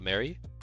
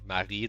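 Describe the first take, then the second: First: The name is said with English pronunciation. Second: The name is said with French pronunciation. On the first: The speaker calls it wrong. "not Mary?" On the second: The speaker calls it right. "Like like in French?"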